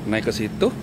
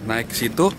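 No difference in how they are said.

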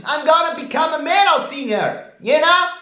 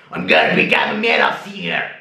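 First: Very high whiny falsetto; high squeaky boast. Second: Low fast shouted growl; metal growl. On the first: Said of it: "start to sound like a hillbilly". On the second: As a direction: bark it like a metal singer. Metal singer take after squeaky one. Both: Shown as a demonstration.

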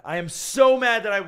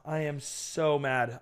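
First: Higher, louder burst of annoyance; venting loudly at the camera; frustrated outburst. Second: Slow, low, softer fed-up grumble; sulking and deflated; quiet frustration. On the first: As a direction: let the anger spill out. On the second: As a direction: let the anger simmer under the breath. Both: Real, not acted.

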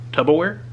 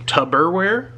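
First: "Tupperware" said as "tubbleware" with an L; joke mispronunciation. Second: "Tupperware" said properly with a clear "per"; correct Tupperware. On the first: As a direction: deliberately botch "Tupperware" into "tubbleware". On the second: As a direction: say "Tupperware" the normal way, rising. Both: Shown as a demonstration. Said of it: "I did that joke".

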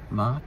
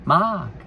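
First: "Mark" with a rising questioning tune; "Mark" as an uncertain question, voice rising at the end; questioning guess. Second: "Mark" pitched high, then falling firmly; "Mark" as a confident high exclamation that drops; decided answer. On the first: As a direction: ask "Mark" tentatively, ending upward. Guessing who Jane was. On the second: Settles on the answer. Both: Real, not acted.

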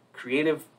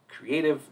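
No difference in how they are said.

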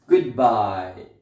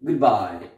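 First: "goodbye" with good quick and bye drawn out; good fast, bye slow. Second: "Goodbye" with Good clipped short and bye stretched; good fast, bye slow. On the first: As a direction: rush good, linger on bye. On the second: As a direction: say Good quickly, then hold bye. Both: Shown as a demonstration. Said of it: "say good fast and bye slowly".

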